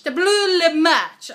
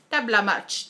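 First: Silly drawn-out. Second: Said in the usual way. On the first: Shown as a demonstration.

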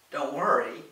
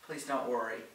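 First: Louder, indignant echo of the reassurance; loud retort. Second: Said in the usual way. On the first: A narrator's reading. Lorraine hurls Gordon's reassurance back at him, loud. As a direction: throw the words back loudly. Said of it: "Lorraine responded loudly". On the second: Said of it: "He quickly added".

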